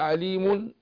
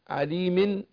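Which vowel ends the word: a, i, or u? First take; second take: u; i. First: The word ends in an -un sound. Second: The word ends in an -in sound. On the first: "مضموم" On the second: "مكسور"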